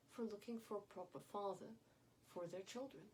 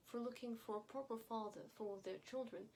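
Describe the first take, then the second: No difference in how they are said.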